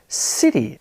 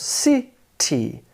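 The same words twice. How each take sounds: First: CITY as one word, stressed on CI; stress on first syllable. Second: CITY split into two separate syllables, ci, ty. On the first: Teacher showing learners word stress, CITY with emphasis on its first syllable. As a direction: lean on the CI of CITY, lighter TY. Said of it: "The first syllable is stressed". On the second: Teacher counting out the syllables for learners, CITY said in two separate beats. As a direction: break CITY in two with a clear gap. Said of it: "It has two syllables". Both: Shown as a demonstration.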